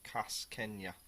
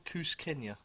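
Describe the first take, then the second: First: "Kas Kenya" said with a flat a, KAS-kenya; "Kas Kenya", with the first syllable like "cass"; reading it as written. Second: "Kus Kenya" with an oo vowel, KOOS-kenya; "Kus Kenya", the first syllable rhyming with "loose"; corrected pronunciation. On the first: Trying out the beer name as it reads on the label, saying "Kas Kenya". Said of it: "I got the Kas Kenya bit there". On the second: Correcting his reading of the beer name to "Kus Kenya". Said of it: "But I think it's Kus". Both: Shown as a demonstration.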